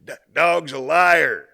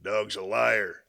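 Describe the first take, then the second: First: Much louder slow repeat through amusement; laughing repeat. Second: Very slow, flat-voiced put-down of "Dog's a liar"; deadpan punchline. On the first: Real, not acted. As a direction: say it again, cracking up at your own joke. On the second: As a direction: drop the punchline dry and unimpressed. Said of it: "The other guy goes".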